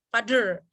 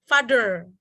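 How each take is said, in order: First: The middle consonant sounds like a d. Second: The middle consonant sounds like a d.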